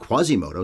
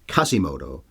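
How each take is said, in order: First: The name begins with a KW sound. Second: The name begins with a plain K sound. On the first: "I've always heard Quasimodo" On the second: "saying the Q as a K"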